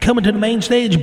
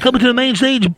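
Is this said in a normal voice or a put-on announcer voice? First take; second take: announcer; normal. First: It is said in a put-on club announcer voice. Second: It is said in the speaker's normal voice.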